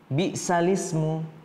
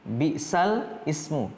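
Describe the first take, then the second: First: The words run together without the middle glottal onset. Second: The words are said separately, as written. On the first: "kemudian dibacanya bi'salismu" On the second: "Tertulisnya seperti ini ya"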